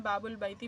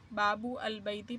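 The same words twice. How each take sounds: First: Said in the usual way. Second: बाबू अल बैती with the vowel and al split apart; wrong reading with separate al. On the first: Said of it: "बाबुल बैती बन जाएगा". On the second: Shown as a demonstration. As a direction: pronounce बाबू अल बैती as three separate words, without joining them. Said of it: "बाबू अल बैती पढ़ना गलत होगा".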